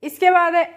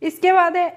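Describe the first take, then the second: No difference in how they are said.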